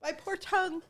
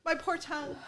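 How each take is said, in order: First: Soft pained whimper; mouth burning from spicy food. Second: Quiet pained moan; mouth burning from spicy food. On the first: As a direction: groan it softly, tongue on fire. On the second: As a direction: say it softly, tongue burning. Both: Real, not acted.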